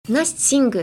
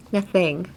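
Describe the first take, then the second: First: "Nothing" with s for th, "nassing-gu"; behind the teeth. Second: "Nothing" with a clear th, tongue between teeth. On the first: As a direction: say "Nothing" Japanese-style, tongue behind teeth. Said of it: "you're speaking behind your teeth". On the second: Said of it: "stick out your tongue". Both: Shown as a demonstration.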